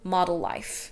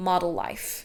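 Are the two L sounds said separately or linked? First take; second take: linked; linked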